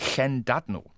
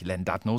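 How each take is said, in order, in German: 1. Das Wort beginnt mit einem gehauchten, zischenden L-Laut. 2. Das Wort beginnt mit einem einfachen, stimmhaften L-Laut. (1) "ein bisschen wie ein deutsches weiches CH" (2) "aber er heißt gar nicht Llandudno"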